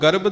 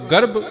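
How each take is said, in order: First: The final consonant is a soft plain b. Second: The final consonant is an aspirated bh. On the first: It means pride. The speaker calls it right. "ਬੱਬੇ ਦੇ ਨਾਲ" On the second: It means a womb. The speaker calls it wrong. "ਭੱਬੇ ਦੇ ਨਾਲ"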